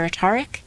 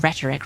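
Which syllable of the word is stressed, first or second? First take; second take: second; first. First: The stress falls on the second syllable. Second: The stress falls on the first syllable. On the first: The speaker calls it wrong. "I always say that wrong because rhetorical and rhetoric" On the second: The speaker calls it right. "or rhetoric rather"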